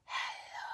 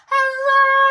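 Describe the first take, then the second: First: It is said very quietly. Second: It is said very loudly.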